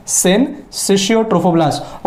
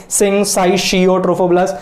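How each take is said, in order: First: Syncytiotrophoblast said slowly as sin-SISH-yo-trophoblast; correct pronunciation. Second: Syncytiotrophoblast said slowly as sing-sigh-SHEE-o-trophoblast; mock-wrong syncytiotrophoblast, with "sigh" for the second syllable; odd mispronunciation. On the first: Teacher correcting the odd version, syncytiotrophoblast slowly as sin-sishio. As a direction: say syncytiotrophoblast properly, short "sish" for the second syllable. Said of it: "ऐसा हम लोग अजीब बोलने का जरूरत नहीं है".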